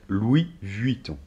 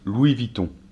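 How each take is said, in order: First: The name is said slowly and fully. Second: The name is said quickly and run together. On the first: This is the standard way it should be said. "Normalement, ça devrait être Louis Vuitton" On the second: This is how people say it in fast everyday speech. "quand ils parlent vite, souvent ils disent Louis Vuitton"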